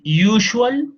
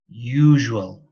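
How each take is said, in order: First: The middle consonant is a voiceless sh sound. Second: The middle consonant is a voiced zh sound. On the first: The speaker calls it wrong. "We don't say" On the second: The speaker calls it right. "we say"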